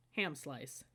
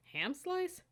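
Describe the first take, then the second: First: Said in the usual way. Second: Can't believe what's for lunch; incredulous. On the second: Acted. Cadet staring at her lunch packet, incredulous. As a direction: pitch leaps up in disbelief.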